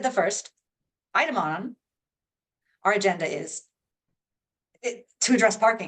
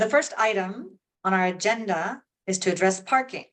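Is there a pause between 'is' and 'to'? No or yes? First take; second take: yes; no. First: A pause breaks the phrase after 'is'. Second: Pauses fall after 'item' and 'agenda' only. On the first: The speaker calls it wrong. "If I paused in a different place, it would sound weird" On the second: The speaker calls it right. "There's three of them, right?"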